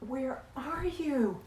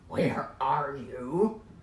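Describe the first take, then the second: First: The voice sounds frantic and anguished. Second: The voice sounds stern and accusing. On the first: The speaker is desperately searching for someone loved. The speaker calls it right. "It's the sound of a parent whose child is lost at the beach" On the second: The speaker is scolding someone who did wrong. The speaker calls it wrong. "It's not"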